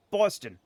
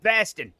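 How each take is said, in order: First: Boston with the standard rounded first vowel; Boston, first vowel as in "boss"; other New Englanders' pronunciation. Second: Baston with a flat open "a" in the first syllable; Baston, local vowel in place of the "o"; local Boston pronunciation. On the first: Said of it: "how other New Englanders say". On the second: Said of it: "if you're from Boston, it's pronounced". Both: Shown as a demonstration.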